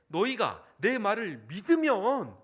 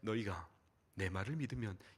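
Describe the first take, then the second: First: It is said in a heated, agitated tone. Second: It is said in a calm, gentle, announcer-like tone. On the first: The speaker is passionately insisting on being believed. The speaker calls it right. "어조가 격양되신 것 같아요 ... 막 이러지 않았겠어요?" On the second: The speaker is merely stating a point politely. The speaker calls it wrong. "젠틀하게 아나운서처럼"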